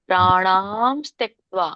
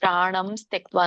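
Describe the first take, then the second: First: The second vowel of pranam is long. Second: The second vowel of pranam is short. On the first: The speaker calls it right. "ನಾ ಹೇಳ್ಬೇಕಲ್ಲ" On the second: The speaker calls it wrong. "ಪ್ರಾಣ ನಾ ಹೇಳ್ಬೇಕಲ್ಲ ಅಲ್ಲಿ ಪ್ರಾಣಂ ತ್ಯಕ್ತ್ವ ಅಂತ ಹೇಳ್ತಾ ಇದ್ದೀರಾ"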